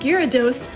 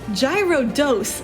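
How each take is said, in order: First: The name begins with three syllables, gyara. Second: The name begins with two syllables, like gyro. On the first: The speaker calls it right. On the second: The speaker calls it wrong.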